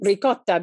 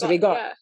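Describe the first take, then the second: First: The middle consonant is a k sound. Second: The middle consonant is a g sound. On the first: This is the original Italian form. "Ricotta becomes" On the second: This is the Italian-American dialect form. "becomes rigotta"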